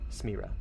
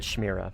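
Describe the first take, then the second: First: The name begins with an 's' sound. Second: The name begins with a 'sh' sound. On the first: The speaker calls it right. "S letter. Got it" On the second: The speaker calls it wrong. "I said I said Shmira"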